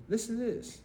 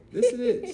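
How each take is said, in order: First: Said in the usual way. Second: High, loud excited repeat; excited call for attention. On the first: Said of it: "plain first take". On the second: Real, not acted. Telling his children, high and loud. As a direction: grab their attention with a shout. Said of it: "emphatic repeat".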